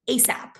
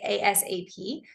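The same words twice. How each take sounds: First: It is spoken as one two-syllable word. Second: Each letter is spoken separately. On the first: "We pronounce it like it's a word" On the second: "we say the letters"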